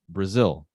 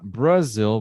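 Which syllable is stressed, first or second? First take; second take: second; first. First: The stress is on the second syllable. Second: The stress is on the first syllable. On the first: The speaker calls it right. "the stress syllable is zil" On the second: The speaker calls it wrong. "So not Brazil"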